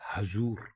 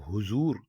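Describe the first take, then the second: First: The first syllable has the vowel 'a'. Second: The first syllable has the vowel 'u'. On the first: The speaker calls it right. "हे के ऊपर जबर डालेंगे तब ये बनेगा हजूर" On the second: The speaker calls it wrong. "हे के ऊपर पेश डाल देंगे ... तो ये गलत है"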